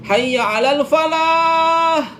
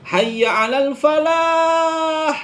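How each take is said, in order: No difference in how they are said.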